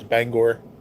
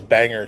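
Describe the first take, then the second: First: The second syllable sounds like 'gor'. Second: The second syllable sounds like 'er'. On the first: The speaker calls it right. "She corrected me. Said no, it's Bangor" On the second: The speaker calls it wrong. "I always said it was Banger"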